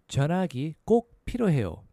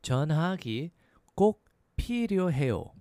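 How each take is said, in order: First: It is said at a faster pace. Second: It is said at a slower pace.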